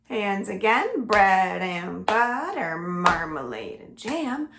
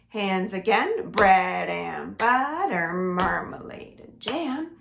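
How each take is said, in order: No difference in how they are said.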